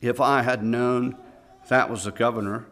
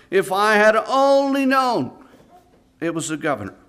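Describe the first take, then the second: First: Said in the usual way. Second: Condemned man's final cry before hanging; anguished last words. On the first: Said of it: "last words the young man uttered". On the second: Acted. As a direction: stretch out only in despair. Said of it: "the last words the young man uttered".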